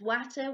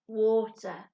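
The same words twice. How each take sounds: First: The first vowel sounds like the 'a' in 'at'. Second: The first vowel sounds like the 'or' in 'for'. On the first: The speaker calls it wrong. "We don't say it as water" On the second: The speaker calls it right. "we say water"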